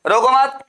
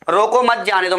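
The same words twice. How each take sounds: First: रोको मत as one raised phrase; pause after मत. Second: मत grouped with जाने दो; pause after रोको. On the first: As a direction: run रोको into मत higher, then stop after मत. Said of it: "भगाओ इसको". (रोको मत एक साथ, फिर विराम) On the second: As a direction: make it mean stop them, मत joined to जाने दो. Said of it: "मतलब रोक लो". (रोको के बाद हल्का विराम) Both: Shown as a demonstration.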